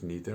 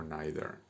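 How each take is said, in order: First: "neither" said as NEE-ther; neither pronounced neether. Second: "neither" said as NAI-ther; neither pronounced naither. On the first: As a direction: use the NEE sound in "neither". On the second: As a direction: use the NAI sound in "neither". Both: Shown as a demonstration. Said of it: "Aceptamos esas dos pronunciaciones".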